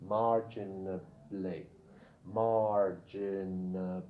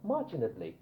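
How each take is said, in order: First: "marginally" drawn out slowly, each syllable held; low, slow teaching demo of "marginally". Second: Said in the usual way. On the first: Shown as a demonstration. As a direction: sound out "marginally" very slowly for learners. Teacher models word syllable by syllable.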